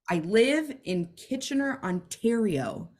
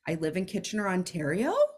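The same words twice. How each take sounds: First: The voice falls firmly at the end. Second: The voice rises at the end.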